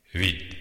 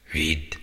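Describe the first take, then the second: First: Curt retort. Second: Whispered in disbelief, echoing the word; stunned whisper. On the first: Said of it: "vágta rá". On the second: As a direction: breathe it back as if not believing it. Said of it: "Jól hallotta ezt?". (hitetlenkedő suttogás) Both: Acted.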